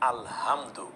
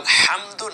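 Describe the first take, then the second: First: The h is a light breathy sound. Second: The h is a deep throaty sound. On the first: It means torn scraps of cloth. The speaker calls it wrong. "গোল হা" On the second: All praise belongs to God. The speaker calls it right. "কেন আলহামদু না বলে"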